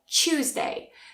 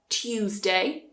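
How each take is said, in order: First: The start has a blended ch sound. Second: The start has a separate t and y sound. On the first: "most speakers will say Tuesday. ... it becomes a ch" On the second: "received pronunciation will say Tuesday, t"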